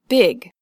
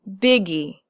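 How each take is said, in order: First: The word ends on a consonant sound. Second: The word ends with an added 'ee' syllable. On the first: The speaker calls it right. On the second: The speaker calls it wrong. "not biggie"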